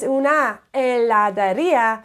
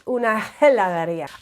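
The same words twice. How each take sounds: First: The H in heladería is silent. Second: The H in heladería is pronounced aloud. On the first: The speaker calls it right. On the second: The speaker calls it wrong.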